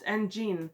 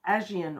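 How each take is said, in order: First: The middle consonant sounds like 'j' in jam. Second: The middle consonant sounds like 'zh' in azure. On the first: This is how the spelling suggests it is said. "which I would have pronounced Anjin" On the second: This is how the audiobook narrator says it. "the narrator descri- says it in a way that sounds like it is Aegean, almost like Azure"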